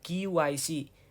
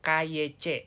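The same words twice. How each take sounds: First: The letters are read with English letter names. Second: The letters are read with Indonesian letter names. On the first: The speaker calls it right. "dalam pronouncement bahasa Inggris" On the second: The speaker calls it wrong. "kita akan betulkan dulu pronouncement-nya ya"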